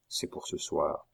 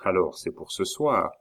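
First: Low, quiet repeat; hushed echo. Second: Said in the usual way. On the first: Acted. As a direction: echo it under the breath. Echoed confirmation, hushed.

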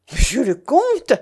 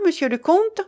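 First: Loud, high cry of protest; indignant exclamation. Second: High, rising question; questioning prompt. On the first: Young woman challenges the false count, exclaiming. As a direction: cry the title back in outrage. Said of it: "s'écria Mélanie". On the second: Guest turns to the count for his answer, questioning. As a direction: prod him for an answer, lifting the end. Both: A narrator's reading.

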